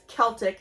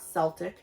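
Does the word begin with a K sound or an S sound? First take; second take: K sound; S sound. First: The word begins with a hard K sound. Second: The word begins with a soft S sound. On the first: The speaker calls it right. "it is Celtic" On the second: The speaker calls it wrong. "not Celtic"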